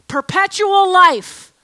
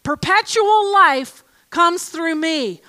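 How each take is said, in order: First: "life" stretched slow and louder; stress on life. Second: "Perpetual" drawn out, slow and weighty; stress on perpetual. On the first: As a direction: lean hard on "life". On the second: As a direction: linger on "Perpetual life comes through me". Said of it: "That's what he says". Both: Shown as a demonstration.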